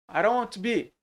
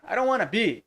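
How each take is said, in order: First: Want to is said as two full words. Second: Want to is contracted into wanna.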